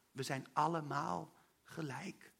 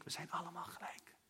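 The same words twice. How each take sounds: First: Soft and slow, allemaal stressed; slow tender emphasis. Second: Breathy whispered repeat. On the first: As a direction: lay it down gently and slowly. Herhaalde kernzin in preek. (zacht en langzaam, nadruk op allemaal) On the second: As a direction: whisper it to each listener. Herhaalde kernzin, gefluisterd. (gefluisterd herhaald) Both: Real, not acted.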